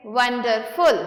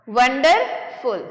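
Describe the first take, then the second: First: Said in the usual way. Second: wonderful in two slow, separate beats; broken in two. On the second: Shown as a demonstration. Teacher counting syllables for students, wonderful slowly broken in two. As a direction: split wonderful after wonder, pause, then फुल. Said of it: "टू syllable".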